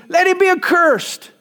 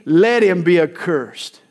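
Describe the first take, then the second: First: Raised, forceful pronouncement; emphatic curse. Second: Grave, settled repetition; firm repeat. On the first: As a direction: let him be accursed, pitched higher and louder. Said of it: "Paul continues in verse eight". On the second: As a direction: let him be accursed, lower and weighty on let. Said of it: "to make the message more emphatic". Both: Retold or imitated.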